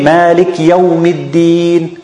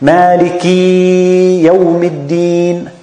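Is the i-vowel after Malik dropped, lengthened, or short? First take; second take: dropped; lengthened. First: The short i after Malik is dropped. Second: The i after Malik is stretched into a long ee. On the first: "He think he's pronouncing the kasra, but he's not" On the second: "we don't want the kasra to be ya"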